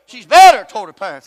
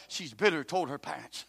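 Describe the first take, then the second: First: She's bitter toward her parents, thrown out loud with weight on bitter; loud repeat. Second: Said in the usual way. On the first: Acted. Preacher repeating it loudly to stress bitterness. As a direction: repeat it as a shout to the pews.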